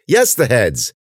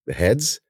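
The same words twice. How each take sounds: First: "Yes, the heads!" high, then falling; exasperated retort. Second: "The heads?" rising at the end; questioning tune. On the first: Ben retorts to Cece, "Yes, the heads!" exasperated. Sarcastic retort to obvious question. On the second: Cece checks what Ben means, "The heads?" rising. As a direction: ask "The heads?" with a lifted ending. Friend asks for clarification. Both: Acted.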